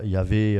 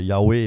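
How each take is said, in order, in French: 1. La consonne du milieu est un son v. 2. La consonne du milieu est un son w. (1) "et pas Ya- Yahvé" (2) "Yahweh et pas"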